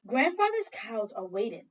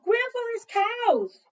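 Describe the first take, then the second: First: Said in the usual way. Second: "Grandfather's cows!" high, loud and slow; alarmed cry. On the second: Acted. Child remembering grandfather's cows, a high loud cry.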